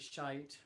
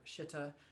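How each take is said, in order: First: It starts with sh and ends in ite. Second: It starts with sh and ends in itta. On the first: "I know we all say shite or shitta, which is really unfortunate" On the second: "I know we all say shite or shitta, which is really unfortunate"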